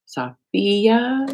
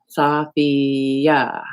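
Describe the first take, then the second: First: Sophia with a questioning rise on the second syllable; checking the name. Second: Sophia with the weight on the second syllable, so-FI-a; stress on second syllable. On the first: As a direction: try Sophia again as a question. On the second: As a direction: lean on the FI in Sophia. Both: Shown as a demonstration. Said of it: "Emphasis on second syllable".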